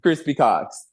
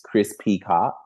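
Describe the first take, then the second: First: The name is said fast, run together as one. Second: The name is said at normal pace, letter separate.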